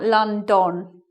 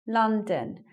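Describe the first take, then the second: First: The second syllable has a full, clear vowel. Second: The second syllable has a weak schwa vowel. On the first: The speaker calls it wrong. "not London" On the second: The speaker calls it right. "So that's the schwa"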